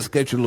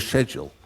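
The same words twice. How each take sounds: First: "schedule" said SKED-jool, hard sk start; "schedule" the American way, starting with sk. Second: "schedule" the British way, starting with sh. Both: Shown as a demonstration. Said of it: "is it schedule or schedule".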